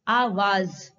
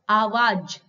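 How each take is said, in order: First: The final consonant is a z sound. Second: The final consonant is a j sound. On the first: "और जब नुक्ता आ गया तो कैसे पढ़ेंगे?" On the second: "अगर ज के नीचे नुक्ते का प्रयोग नहीं हुआ होता"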